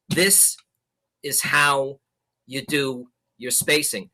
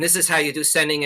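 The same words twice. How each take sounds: First: "This", "is how", "you do your spacing" split by clear pauses; well spaced. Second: Fast, run together with no gaps; jumbled together. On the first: Showing the class good spacing, pauses between word groups. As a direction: leave a deliberate gap between each chunk. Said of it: "or I talk like this". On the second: Showing the class bad spacing, words rushed together. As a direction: cram the words together like sloppy sending. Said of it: "I started to talk like this to you guys". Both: Shown as a demonstration.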